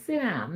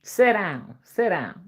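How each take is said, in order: First: SIT DOWN with a clear short i; kids' correction. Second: SIT DOWN with sit as "set"; Mama's pronunciation. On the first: Retold or imitated. Kids correcting Mama, sit down with a short i. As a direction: say sit down with "sit", not "set". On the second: Shown as a demonstration. Mom's own way, sit down as "set down". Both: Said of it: "No, Mama, it's sit down".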